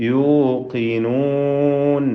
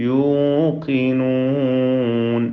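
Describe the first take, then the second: Both takes have the same delivery.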